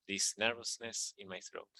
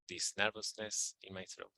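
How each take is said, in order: Both takes have the same delivery.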